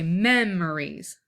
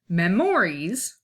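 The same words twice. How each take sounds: First: The stress is on the first syllable. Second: The stress is not on the first syllable. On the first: The speaker calls it right. "we say memories. So mem is stressed" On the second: The speaker calls it wrong. "we don't say it memories"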